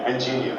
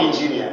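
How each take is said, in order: First: Engineer with soft ending, quiet; the proper engineer, softly; correct engineer. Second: Engineer said the local wrong way; the mistaken engineer. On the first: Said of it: "Not engineer, engineer". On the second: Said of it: "Not engineer". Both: Shown as a demonstration.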